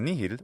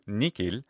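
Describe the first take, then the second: First: The word has an h sound in the middle. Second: The word has a k sound in the middle. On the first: "with a nice H sound" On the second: "ecclesiastical pronunciation will often do nikil"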